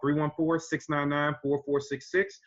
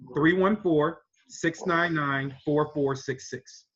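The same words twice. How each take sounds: First: The number is said at normal speed. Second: The number is said slowly.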